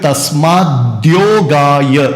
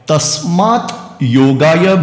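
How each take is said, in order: First: One joined word, with d linking the parts. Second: Two separate words, the first ending in t. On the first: "इन दोनों शब्दों के जोड़ से बना है तस्माद्योगाय" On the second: "तस्मात् योगाय भी बोल सकते हैं"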